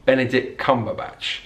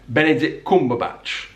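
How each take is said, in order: First: It has a southern English ah vowel in Cum. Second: It has a northern English uh vowel in Cum. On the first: "Whereas in the south of England" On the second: "in the north of England, it would be"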